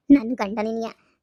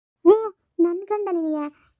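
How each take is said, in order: First: Low, grim echo of the taunt; bitter wife. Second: Slow, drawn-out teasing taunt; lilting mistress taunt, slow; mocking mistress. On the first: Acted. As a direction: throw her words back, low and bitter. Wife bitterly repeats the mistress. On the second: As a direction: stretch it out to mock her. Mistress mocking the wife's husband.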